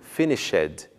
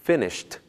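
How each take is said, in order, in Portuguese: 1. O final acrescenta uma sílaba extra com vogal. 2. O final é apenas o som de t. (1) "e não finished, com o som da vogal E" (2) "pronuncia-se finished"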